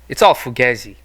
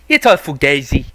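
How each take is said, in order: First: It is said in the speaker's plain accent. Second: It is said in a put-on Italian accent.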